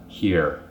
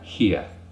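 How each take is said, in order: First: The word ends in a clearly pronounced R sound. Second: The word ends in a vowel sound, without R.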